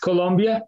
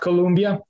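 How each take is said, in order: First: The second syllable has an 'o' vowel, 'lom'. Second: The second syllable has an 'uh' vowel, 'lum'. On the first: The speaker calls it right. "it's Colombia" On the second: The speaker calls it wrong. "not Colombia. Sometimes people mispronounce our name"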